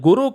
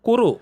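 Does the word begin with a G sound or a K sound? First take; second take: G sound; K sound. First: The word begins with a voiced G sound. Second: The word begins with a voiceless K sound. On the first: The speaker calls it wrong. "அது குரு கிடையாது" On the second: The speaker calls it right. "கேயூஆர்யூ குருன்னு நம்ம சொல்லணும்"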